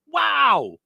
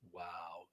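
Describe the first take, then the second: First: It is said louder with energy. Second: It is said flat and droopy.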